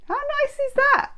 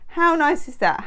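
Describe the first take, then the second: First: High squeaky critter voice; prairie dog. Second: Said in the usual way. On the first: Shown as a demonstration. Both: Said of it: "That's my prairie dog impression".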